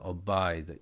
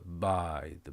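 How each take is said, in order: First: A short vowel sound comes before the b. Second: The word starts directly with the b sound. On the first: The speaker calls it right. "이게 앞에 어가 있다라고 생각하고 발음을 하면 어떻게 돼요? 어가 있습니다" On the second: The speaker calls it wrong. "앞 어를 하지 말아 보세요"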